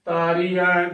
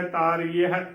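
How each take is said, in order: First: ਤਾਰੀ ਹੈ merged to taaree-ai; demonstrated mistake, ਤਾਰੀ ਹੈ without its h; wrong, h dropped. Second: ਤਾਰੀ ਹੈ as taaree-a-he; careful ਤਾਰੀ ਹੈ, last syllable separate; correct, h sounded. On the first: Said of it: "ਗਲਤ ਉਚਾਰਨ ਹੋਵੇਗਾ". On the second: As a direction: give ਤਾਰੀ ਹੈ its full h. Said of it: "ਸ਼ੁੱਧ ਉਚਾਰਨ ਹੈ". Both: Shown as a demonstration.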